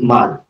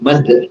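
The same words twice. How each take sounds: First: The final d is short, with no echo. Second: The final d is doubled and echoes. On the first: The speaker calls it wrong. "Hindi mad. Mali yun" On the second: The speaker calls it right. "Dahil ang dulo niya ay dalawang D"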